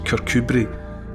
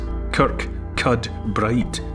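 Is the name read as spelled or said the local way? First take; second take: local way; as spelled. First: The name is said in its local pronunciation. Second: The name is read out as it is spelled. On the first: The speaker calls it right. "but it's pronounced" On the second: The speaker calls it wrong.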